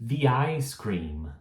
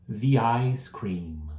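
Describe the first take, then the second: Both takes have the same delivery.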